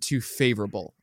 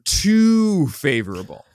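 First: The word too carries no special emphasis. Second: The word too carries strong emphasis.

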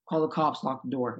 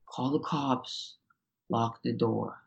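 First: The line is said quickly and anxiously. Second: The line is said slowly and oddly. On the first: The speaker calls it right. "Say it faster ... in kind of an angsty way" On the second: The speaker calls it wrong. "He kept being like, ... really weird ... unnatural"

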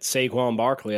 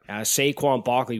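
First: It is said in a Southern American accent. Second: It is said in a Boston accent. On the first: "There's your Southern accent" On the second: "I could do a good Boston accent"

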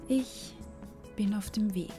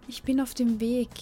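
First: The sentence is spoken very slowly. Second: The sentence is spoken at normal speed.

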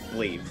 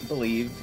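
First: It is said like bleave. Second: It is said like the ordinary word believe. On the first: The speaker calls it right. "That is spelled B-L-E-A-V" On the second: The speaker calls it wrong. "not Believe, and like me mispronouncing the word Believe"

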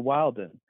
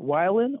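First: The first syllable sounds like 'will'. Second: The first syllable sounds like 'why'. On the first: "in Utah, we kind of say Wilden" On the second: "like you're saying it with a Y"

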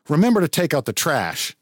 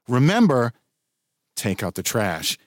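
First: It flows without a pause after remember. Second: There is a pause after remember.

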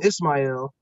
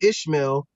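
First: The name is said as Ismail, with an 's'. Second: The name is said as Ishmael, with an 'sh'. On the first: This is the Arabic form of the name. "he took the Arabic pronunciation" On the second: This is the Hebrew form of the name. "instead of the Hebrew pronunciation"

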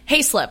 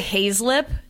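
First: The middle consonant is a plain s sound. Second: The middle consonant is a z sound. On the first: The speaker calls it right. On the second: The speaker calls it wrong.

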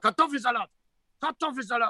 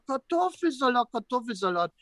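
First: It is said in a cross, negative tone. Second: It is said in a warm, positive tone.

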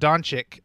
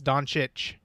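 First: One of the c sounds is not ch. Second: Both c sounds are said as ch. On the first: The speaker calls it wrong. "it's not Doncic" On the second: The speaker calls it right. "They're all CHs"

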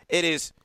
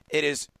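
Both takes have the same delivery.

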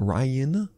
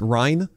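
First: The name is said as two syllables, 'Ry-an'. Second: The name is said as one syllable, like 'Rhine'. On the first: The speaker calls it wrong. "not Ryan" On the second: The speaker calls it right. "it's Ryan, ... just like Ryan Sandberg"

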